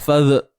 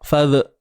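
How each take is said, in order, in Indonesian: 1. Bunyi dh ditahan dan dipotong pendek. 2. Bunyi dh ditahan dan dipotong pendek.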